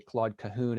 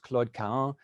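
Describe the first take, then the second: First: The name is said with American English pronunciation. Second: The name is said with French pronunciation. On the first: "most English speakers, especially in the United States, say" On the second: "in French, her name should be pronounced"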